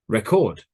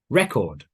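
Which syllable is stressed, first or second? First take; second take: second; first. First: The stress is on the second syllable. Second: The stress is on the first syllable. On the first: It is used as a verb. "V is verb" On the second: It is used as a noun. "N means noun"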